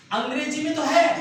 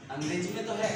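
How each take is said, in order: First: है pushed higher and louder; teacher stressing that English has it; emphatic. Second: Said in the usual way. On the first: Shown as a demonstration. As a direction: punch है in अंग्रेजी में तो है as a contrast point. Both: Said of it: "लेकिन हिंदी में इसका उच्चारण".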